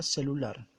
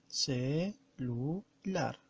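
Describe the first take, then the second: First: Said in the usual way. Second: "celular" split slowly as ce, lu, lar; syllable by syllable. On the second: Shown as a demonstration. Teacher counting the syllables of celular, syllable by syllable. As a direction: draw out each syllable of "celular" with pauses between. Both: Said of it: "Vamos a pronunciar".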